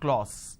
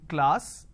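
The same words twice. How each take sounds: First: The vowel sounds like 'o'. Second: The vowel sounds like 'a'. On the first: The speaker calls it wrong. "They say k, l, o, s" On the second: The speaker calls it right. "Instead of saying class"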